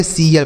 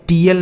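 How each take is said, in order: First: "सीएल" with S in place of T; correct pronunciation. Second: "टीएल" with a hard T; wrong pronunciation. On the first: Teacher answering students' doubt, right "सीएल" with S sound. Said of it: "सीएल पढ़ेंगे". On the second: Teacher answering students' doubt, wrong "टीएल" with T sound. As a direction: keep the spelt T in "टीएल". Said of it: "इसे हम टीएल नहीं पढ़ेंगे". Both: Shown as a demonstration.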